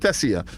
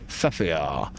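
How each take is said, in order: First: The s sound is said clearly. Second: The s sound is said with a lisp.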